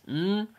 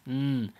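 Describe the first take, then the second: First: "mm" as a higher English n hum; English N sound. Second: "mm" as a light n hum, tongue at the front teeth; Arabic noon sound. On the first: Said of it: "when you say it in English". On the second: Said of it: "When you say it in Arabic". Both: Shown as a demonstration.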